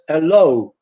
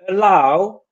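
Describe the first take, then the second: First: The stressed vowel is a plain o sound. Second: The stressed vowel is the English ow diphthong. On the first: The speaker calls it wrong. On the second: The speaker calls it right.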